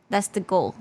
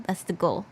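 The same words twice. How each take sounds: The two takes are said the same way.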